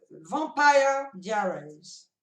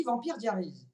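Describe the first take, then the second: First: "Vampire Diaries" said slowly the English way, VAM-pie DIE-reez; English-style title. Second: "Vampire Diaries" said the French way, vam-PIR dia-RIZ; French-style title. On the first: Fan repeats the "correct" English title she was taught, slow and deliberate. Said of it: "ça se dit". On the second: Fan admits how she usually says the show's name, French pronunciation. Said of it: "moi en général je dis". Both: Shown as a demonstration.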